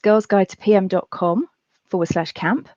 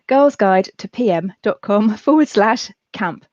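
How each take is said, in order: First: The address is said quickly. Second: The address is said slowly. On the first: The speaker calls it wrong. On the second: The speaker calls it right.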